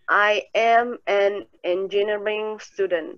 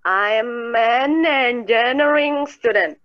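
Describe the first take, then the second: First: "I am" is said as two full words. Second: "I am" is contracted into one syllable. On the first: "Jadi ada dua nih" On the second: "bisa disingkat jadi I'm"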